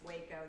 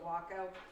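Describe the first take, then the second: First: It is pronounced like the Texas city's name. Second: It is pronounced unlike the Texas city's name. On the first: This names the city. "the city in Texas. That's Waco" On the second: This names the airplane. "This is a Waco"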